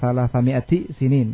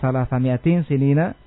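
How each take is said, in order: First: Mi'ati has no final n; sinin ends in -in. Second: Mi'ati takes a final n; sinina ends in -na. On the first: Sinin is a genitive specifier of the number. "Pada kira yang lain dibaca dengan ibafah" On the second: Sinina is an apposition to the number. "kalau kira kita salah sami'ati sinina, padahal atau bayan"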